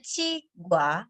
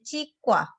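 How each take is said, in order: First: The middle consonant is plain. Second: The middle consonant is tense. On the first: This is how it is written. "Tulisannya Cigua" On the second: This is how it is actually read. "membacanya Cikwa"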